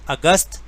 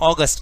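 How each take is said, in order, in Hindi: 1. यह शब्द हिंदी उच्चारण से बोला गया है। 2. यह शब्द अंग्रेज़ी उच्चारण से बोला गया है। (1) "अगस्त तो हिंदी में कहते हैं" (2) "लेकिन इंग्लिश में हम उसे अगस्त कहते हैं"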